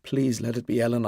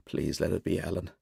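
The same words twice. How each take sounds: First: Slightly softer, earnest plea; hope it aloud, gently; hushed prayer. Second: Much softer, hushed plea; whispered prayer. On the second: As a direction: pray it under your breath. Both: A narrator's reading. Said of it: "I pray".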